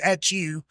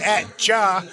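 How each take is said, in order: First: The word 'you' is said in full. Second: The word 'you' is reduced to 'ya'. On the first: "It means at you" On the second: "that's also kind of a hillbilly dialect right there"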